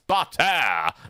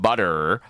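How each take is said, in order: First: The middle T is clearly pronounced. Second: The middle T is a soft American flap.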